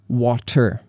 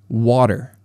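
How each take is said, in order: First: The middle t is a clear, crisp t. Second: The middle t is a quick d-like flap. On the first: The speaker calls it wrong. "We don't say water" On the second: The speaker calls it right. "we say water. ... that d in water, d, water, is called a flap T"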